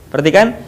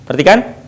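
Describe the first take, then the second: No difference in how they are said.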